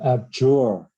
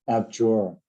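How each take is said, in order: First: Slow abjure with the weight on JURE; stress on second syllable. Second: Said in the usual way. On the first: Shown as a demonstration. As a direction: stretch abjure and lean on JURE. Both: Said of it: "the stress is on the second, uh, syllable".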